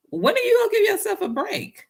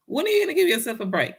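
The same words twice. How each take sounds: First: High rising plea on "you"; emphatic question. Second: Faster, falling on "you"; firmer repeat. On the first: Urging viewers to take a break, high pleading rise. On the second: Repeating the question to viewers, firm and quick. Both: Shown as a demonstration.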